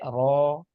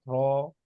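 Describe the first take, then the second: First: The lips are rounded on the vowel. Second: The lips are rounded on the vowel.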